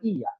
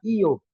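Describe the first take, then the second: First: The word ends with an 'a' vowel. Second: The word ends with an 'o' vowel. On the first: This is the general Indonesian form. "kita bilang iya" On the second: This is how people from Makassar say it. "Orang Makassar bilang iyo"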